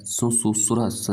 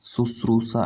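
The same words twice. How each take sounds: First: शुश्रूषा as "su-su-su-ras"; extra hissing syllables in शुश्रूषा, "su-su-su-ras"; wrong garbled form. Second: शुश्रूषा as "sus-roo-saa"; three syllables in शुश्रूषा, long "roo"; correct form. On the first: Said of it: "नहीं होता है भाई". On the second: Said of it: "ऐसे लिखा जाता है". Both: Shown as a demonstration.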